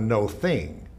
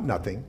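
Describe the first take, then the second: First: It is said as two separate words. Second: It is said as one run-together word. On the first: It is not a thing, but it is not empty. "Hear the difference?" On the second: There is nothing at all. "Not nothing"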